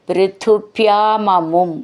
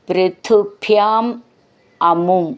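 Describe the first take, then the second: First: The two words run together without a break. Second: The two words are said separately with a break.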